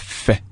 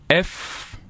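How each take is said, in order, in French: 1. On ne dit que le son court de la lettre. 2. La lettre se dit avec son nom complet. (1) "mais les sons, c'est fait" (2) "Quand on parle de la lettre, c'est F"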